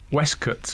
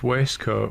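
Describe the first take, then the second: First: The first syllable sounds like 'west'. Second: The first syllable sounds like 'waist'. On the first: This is how people in Yorkshire say it. "people in Yorkshire pronounce it Westcote, Westcott" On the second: This is the usual way of saying it. "instead of waistcoat"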